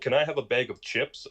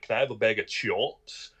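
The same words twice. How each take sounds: First: The word chips has its usual vowel. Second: The vowel in chips is bent toward chomps. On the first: "instead of saying like" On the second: "I'll just bend the word like chomps"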